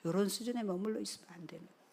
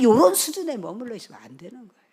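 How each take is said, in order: First: Soft, fast repeat of a warning; hushed admonishment. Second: Forceful, loud warning from the pulpit; loud admonishment. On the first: Preacher letting the warning sink in with congregation, hushed admonishment. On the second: Preacher warning congregation not to stay at this level, loud admonishment. Same warning, first hammered, then hushed. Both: Real, not acted.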